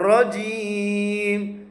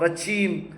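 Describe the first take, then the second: First: The middle consonant is a 'j' sound. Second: The middle consonant is a 'ch' sound. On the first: The speaker calls it right. "ஜீம்னு சொல்லணும்" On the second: The speaker calls it wrong. "சில பேர் சீம் சொல்லுவாங்க, ரச்சீம் அப்படி சொல்லுவாங்க"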